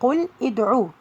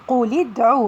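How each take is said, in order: First: The l has no vowel before ud'u. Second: The l is followed by an i vowel. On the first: The speaker calls it wrong. "It is very hard to say قُل ادْعُوا" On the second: The speaker calls it right. "add a vowel to this letter with kesra"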